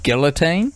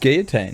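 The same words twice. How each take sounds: First: It is said the New Zealand way. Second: It is said the French-style way. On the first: "That's how we were taught as um, Kiwis" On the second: "probably the correct way is guillotine"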